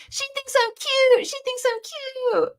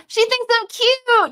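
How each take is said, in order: First: Mock-flattered sing-song; cute voice. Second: Said in the usual way. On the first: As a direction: coo it like you're flattered and smug. Performing the flattering chat line. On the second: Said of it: "No, that's the line".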